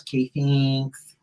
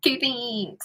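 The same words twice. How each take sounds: First: Slow, weedy Midwestern housewife; weedy little voice. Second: Thin reedy voice. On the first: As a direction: stretch it out thin and weedy. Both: Retold or imitated. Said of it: "put on this weedy little voice".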